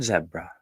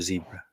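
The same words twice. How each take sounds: First: It is said with a non-American pronunciation. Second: It is said with an American pronunciation.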